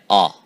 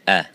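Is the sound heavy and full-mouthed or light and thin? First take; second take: heavy; light. First: The sound is heavy, said with a full mouth. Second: The sound is light, said with a thin mouth. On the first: The speaker calls it wrong. "the common mistake ... with the attribute of full mouth by saying ah" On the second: The speaker calls it right. "but it is a"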